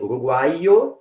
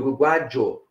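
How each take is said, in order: First: The middle consonant is a y sound. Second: The middle consonant is a zh sound. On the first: "pronunciar como IE" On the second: "ou como J"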